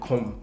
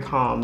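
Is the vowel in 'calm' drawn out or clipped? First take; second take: clipped; drawn out. First: The vowel is short and clipped. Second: The vowel is drawn out and long. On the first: The speaker calls it wrong. "not calm" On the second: The speaker calls it right. "the A's got to drag a bit. Very calm"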